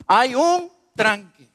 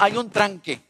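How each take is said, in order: First: "Hay un tranque" said slowly, each word weighted; slow, weighted restatement; slow emphatic repeat. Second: Said in the usual way. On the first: Shown as a demonstration. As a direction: drag out "Hay un tranque" to drive it home.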